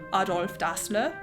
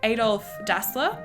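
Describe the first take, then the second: First: The name is said with a German accent. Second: The name is said with an English accent.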